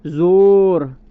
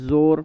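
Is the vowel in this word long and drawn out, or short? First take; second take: long; short. First: The vowel is long and drawn out. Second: The vowel is short, not drawn out. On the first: The speaker calls it wrong. "ऐसे तो नहीं पढ़ते ना" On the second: The speaker calls it right. "इसको ज़्यादा खींचते नहीं हैं"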